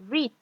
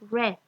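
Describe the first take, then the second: First: It is said with a long vowel, like 'reed'. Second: It is said with a short vowel, like 'red'. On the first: The verb is in the present tense. "en presente se dice" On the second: The verb is in the past tense. "pero en pasado se lee read"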